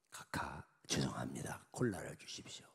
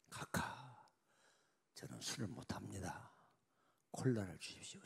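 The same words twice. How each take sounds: First: Hushed, apologetic whisper to a superior; timid whisper. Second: Quiet, lower polite refusal; soft refusal. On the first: General whispering a timid refusal to the president. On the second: General quietly refusing the president's drink. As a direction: decline softly but firmly. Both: Acted.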